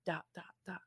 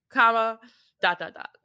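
First: Dot, dot, dot fading to almost nothing; trailing-off ellipsis. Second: Dot, dot, dot said through a laugh; laughing ellipsis. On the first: Showing how an ellipsis leaves the story hanging, trailing off. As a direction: let the dot, dot, dot die away into silence. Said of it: "So if it's like". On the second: Running through her steps as a list, laughing. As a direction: chuckle your way through dot, dot, dot. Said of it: "So I go exclamation point". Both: Shown as a demonstration.

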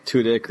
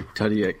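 First: Tudyk said as TOO-dik; pronounced TOO-dik. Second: Tudyk said as TUH-dee-ik; pronounced TUH-dee-ik. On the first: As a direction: say Tudyk with a long "oo" in the first syllable. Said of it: "That's how you pronounce his last name?". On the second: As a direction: say Tudyk with a short "uh", then "ee-ik". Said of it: "I don't know. I don't wanna mess it up". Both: Shown as a demonstration.

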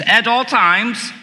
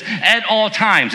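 First: "at all times" drawn out slowly with weight; emphasis on "at all times". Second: Said in the usual way. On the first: Shown as a demonstration. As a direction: lean on every word of "at all times", lifting the pitch on "all". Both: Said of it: "And here's the emphasis".

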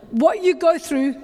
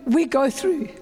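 First: "you" lifted and leaned on; "you" stressed, falling. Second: "we" leaned on, level and firm; "we" stressed, plain tune. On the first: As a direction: set "you" apart from "we". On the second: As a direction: turn "you" into "we" with weight. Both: Shown as a demonstration.

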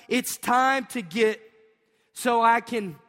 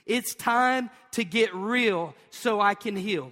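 First: Slow and louder, rallying the crowd; louder repeat. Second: Slow, deliberate chant of the takeaway; slow call and response. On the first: Pastor urging the congregation to say it louder and slower. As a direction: push it up for the second round. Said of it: "Would you say it one more time?". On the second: Pastor leading the congregation in a slow, measured chant. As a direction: spell out the line for the congregation to repeat. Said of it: "I want you to say it with me". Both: Shown as a demonstration.

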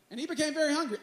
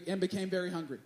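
First: Said in the usual way. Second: Soft, relishing read of "very hungry"; quiet savoring. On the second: Shown as a demonstration. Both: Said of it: "I love this phrase".

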